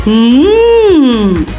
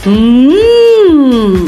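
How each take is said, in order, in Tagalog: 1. Ang katinig ay isang huni na nakasara ang labi, mag-isa lang. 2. Ang katinig ay isang huni na nakasara ang labi, mag-isa lang.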